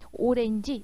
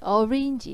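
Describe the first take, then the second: First: It is said with a Korean loanword pronunciation. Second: It is said halfway between English and Korean. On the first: "오렌지 이렇게 발음하는 것은 바로 뭐예요? 지금 한국 발음인 것이죠" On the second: "원어 발음에 가깝게 orange, orange 이렇게 하는 거"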